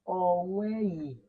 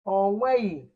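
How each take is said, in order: First: Onweghị drawn out slowly, every syllable clear; slow careful onweghị. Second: Said in the usual way. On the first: Shown as a demonstration. Teacher modelling onweghị slowly for pupils. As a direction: say onweghị slowly for the class to copy. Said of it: "Just like this". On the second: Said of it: "That's how you pronounce it".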